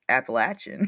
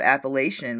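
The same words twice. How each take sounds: First: The third syllable sounds like 'latch'. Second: The third syllable sounds like 'lay'. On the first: The speaker calls it right. "it's Appalachian" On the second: The speaker calls it wrong. "I was taught Appalachian my whole life"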